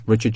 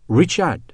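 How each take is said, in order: First: Said in the usual way. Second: Put-on "Richard" higher, in a French accent; trying it out. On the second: A narrator's reading. French woman trying the soldier's name, "Richard" tentatively in a French accent. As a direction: try out "Richard" with French pronunciation. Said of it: "she said, trying it out".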